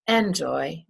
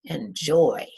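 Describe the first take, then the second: First: Enjoy with the weight on EN; wrong stress on enjoy. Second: Enjoy with the weight on JOY, falling; stress on second syllable. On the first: Teacher shows what we don't say, stressing EN in enjoy. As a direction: say EN-joy, first syllable punched. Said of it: "We don't say enjoy". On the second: Teacher shows how we say enjoy, stressing JOY. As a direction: say en-JOY, light first syllable. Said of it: "it's the second one". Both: Shown as a demonstration.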